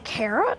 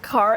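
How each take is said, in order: First: It is said in a plain accent. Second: It is said in a British accent.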